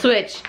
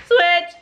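First: Said in the usual way. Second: Excited exclaim. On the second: Real, not acted. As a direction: announce Switch! with a burst of excitement. Excited repeat of game name.

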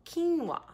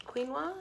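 First: QUINOA drawn out as "KEEN-wah"; slow pronunciation. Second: QUINOA as "KWEEN-wah", softly, rising like a question; unsure pronunciation. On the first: Shown as a demonstration. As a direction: say QUINOA slowly, both syllables: "keen-wah". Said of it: "pronounce them slowly". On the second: Real, not acted. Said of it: "I don't know how you say it".

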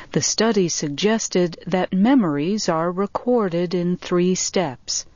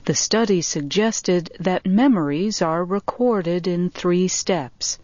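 Both takes have the same delivery.

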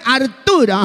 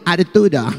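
First: Louder name. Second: Said in the usual way. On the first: Acted. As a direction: say Arturo higher and stronger. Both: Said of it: "dígamelo más fuerte".

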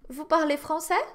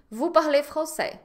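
First: Français rises at the end as a question; rising question tune. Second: Parlez français said flat with a falling end; statement intonation. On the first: Teacher demonstrates the first way to ask a question. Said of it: "a primeira maneira é". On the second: Teacher models the statement to her online class. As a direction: say it as a plain statement. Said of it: "Isso aqui é uma afirmativa". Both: Shown as a demonstration.

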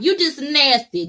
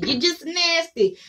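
First: "You just nasty" hit hard on the first word; disgusted jab. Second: "You just nasty" slowed, higher, stress on just; "You just nasty" stretched and pitched up; slower higher repeat. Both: Acted. Scolding repeated insult.

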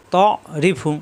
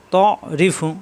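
The two takes are said the same way.

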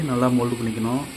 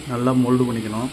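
The two takes are said the same way.

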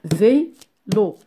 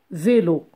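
First: Vélo split into vé and lo; syllable by syllable. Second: Said in the usual way. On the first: Shown as a demonstration. Teacher shows two syllables, Vélo broken in two. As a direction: pause between the two beats of Vélo. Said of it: "On a deux syllabes". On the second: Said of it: "compter les syllabes en frappant des".

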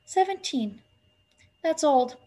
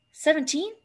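First: Mildly hopeless, falling "Seventeen"; high girl's voice, understated dismay. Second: SEVENTEEN pitched high with a rising end; "Seventeen" higher, lifting at the end; questioning. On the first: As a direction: let it drop, a little dismayed. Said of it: "said Winnie hopelessly". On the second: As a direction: echo "Seventeen" as a question, going up. Girl questions his stated age. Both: A narrator's reading.

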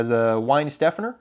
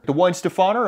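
First: Weinstephaner, plain American s, questioning end; Americanized pronunciation. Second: Weinstephaner as wine-stih-FAH-ner, higher question; higher, rising Weinstephaner, stressed on FAH; waiter's corrected pronunciation. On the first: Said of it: "I kind of Americanized it". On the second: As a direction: echo Weinstephaner back with the stress moved to FAH. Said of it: "I've been corrected three out of three times". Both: Retold or imitated.

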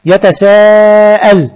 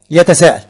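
First: Slow, clear teacher demo of يتساءل; slow demo word. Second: Said in the usual way. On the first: Shown as a demonstration. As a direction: pull يتساءل apart syllable by syllable.

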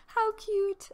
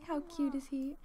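First: "How cute" squealed much higher. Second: Said in the usual way. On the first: Real, not acted. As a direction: gush it up high.

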